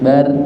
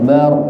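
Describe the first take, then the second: First: The r is light, with a thin, bright vowel. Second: The r is heavy, with a full, dark vowel. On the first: The speaker calls it wrong. "Kalau bar niku tipis" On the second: The speaker calls it right. "Ini kan tebel"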